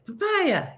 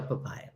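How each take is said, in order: First: High-pitched mock yell. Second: Said in the usual way. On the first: Shown as a demonstration. Demonstrating for listeners what to yell at Chris, mock yell. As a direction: pitch it way up like a silly call. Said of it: "just yell "papaya". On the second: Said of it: "just yell".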